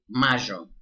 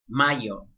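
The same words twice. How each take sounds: First: The middle consonant sounds like English sh. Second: The middle consonant sounds like English y. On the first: "In Argentina, it would be" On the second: "in the rest of Latin America, this would be"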